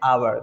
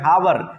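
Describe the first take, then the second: First: The word begins directly with a vowel. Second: The word begins with an h sound. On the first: The speaker calls it right. "This is the right sound of this word आवर" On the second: The speaker calls it wrong. "जो कि बिल्कुल गलत sound है"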